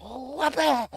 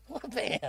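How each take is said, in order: First: High, punchy "Wha-bam!" like a cartoon hit; mock punch sound. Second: A quieter, fading "Wha-bam!"; softer punch sound echo. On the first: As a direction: smack the sound out with a sharp top. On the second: Retold or imitated. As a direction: let the second hit trail off. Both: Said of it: "fucking went".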